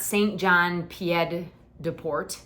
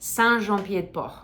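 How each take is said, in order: First: The name is said with an English pronunciation. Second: The name is said with a French pronunciation. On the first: The speaker calls it wrong. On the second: The speaker calls it right.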